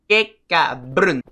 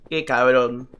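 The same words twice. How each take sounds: First: Slow, loud, mock-outraged "Qué cabrón"; drawn-out insult. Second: Said in the usual way. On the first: Real, not acted. Gamer dragging out "Qué cabrón" at the trolling game, slow and loud.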